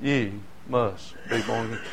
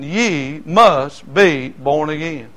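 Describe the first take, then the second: First: Much softer and lower, almost to himself; a soft, solemn echo of the refrain; hushed refrain. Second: Slow, loud, every word weighted; solemn declaration. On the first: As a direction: let it fall quiet after the story, grave and sorrowful. The refrain after a long pause. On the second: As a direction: lay down the scripture like a verdict. Preacher's key scripture line. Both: Acted.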